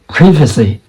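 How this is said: It is said in a British accent. "is the U K accent"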